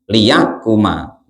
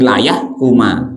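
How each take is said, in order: First: The first syllable has an 'i' vowel. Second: The first syllable has an 'a' vowel. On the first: "dibaca kasrohnya huruf lamnya" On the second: "Kalau dibaca uh, fatkah tadi"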